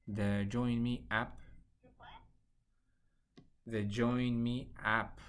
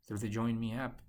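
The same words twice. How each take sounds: First: Slowed down, each word clear. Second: Said in the usual way. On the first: Real, not acted. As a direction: spell it out slowly over a bad line.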